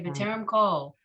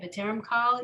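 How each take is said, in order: First: The last word rhymes with English 'call'. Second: The last word has an open 'ah' vowel. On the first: It is the sung or older pronunciation. The speaker calls it wrong. "When they sing the song, they say B'terem call. It's lazy or geographic" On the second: It follows the written spelling. The speaker calls it right. "but it's spelled kal"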